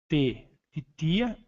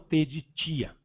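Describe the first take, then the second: First: The t in tia is a plain, hard t. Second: The t in tia is softened into 'ch'. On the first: The speaker calls it right. "T de tia para o inglês" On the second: The speaker calls it wrong. "e não T de tia, porque esse som de T que nós falamos ti não serve"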